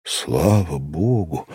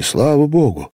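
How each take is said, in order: First: Restrained joy, low and slow; understated, drawn-out thankfulness; joyful exclamation. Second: High, rising exclamation of relief; heartfelt high cry of thanks; burst of joy. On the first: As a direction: breathe out relief slowly, in a low voice. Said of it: "воскликнул я с несказанным порывом радости". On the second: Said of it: "с несказанным порывом радости". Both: A narrator's reading.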